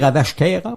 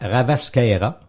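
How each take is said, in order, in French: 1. Le s se prononce comme un sh. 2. Le s se prononce comme un s simple.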